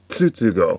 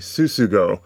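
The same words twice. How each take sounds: First: The name begins with a 'ts' sound. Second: The name begins with a plain 's' sound. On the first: The speaker calls it right. "just take the end of the peanuts or the word peanuts and say Tsutsugo" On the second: The speaker calls it wrong. "by making the T silent. So he's saying Tsutsugo"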